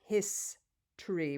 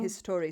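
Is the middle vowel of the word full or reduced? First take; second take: reduced; full. First: The middle vowel almost disappears. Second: The middle vowel is a full O sound. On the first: The speaker calls it right. "these vowels start to disappear" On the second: The speaker calls it wrong. "We do not say"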